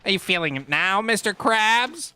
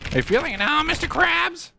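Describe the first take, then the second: First: Cartoon catchphrase. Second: High-pitched quoting voice, climbing at the end; cartoon catchphrase. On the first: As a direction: stretch the last words into a rising taunt. Cartoon catchphrase, slower take. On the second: Cartoon catchphrase, first take.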